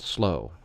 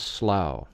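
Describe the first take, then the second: First: It sounds just like the word slow. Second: It does not sound like the word slow. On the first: The speaker calls it wrong. "not Slow" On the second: The speaker calls it right. "is known as Slough"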